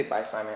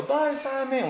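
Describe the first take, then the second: First: Said in the usual way. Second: Put-on very high little child voice; kids saying bye. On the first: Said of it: "When they say". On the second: Kids waving goodbye to Simon, very high. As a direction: chirp goodbye like a small kid. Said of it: "So then go".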